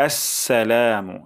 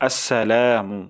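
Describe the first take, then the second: The two takes are said the same way.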